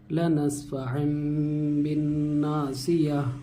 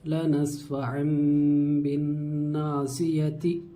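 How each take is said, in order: First: The last word ends with a silent 'h' sound. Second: The last word ends with a voweled 'ti' sound.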